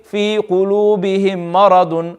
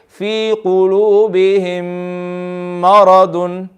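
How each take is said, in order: First: The m sounds at the join are short and plain. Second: The m sounds merge into one long nasal hum. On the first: The speaker calls it wrong. "we're not just going to say" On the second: The speaker calls it right. "I read the meme, the second meme with ghunna"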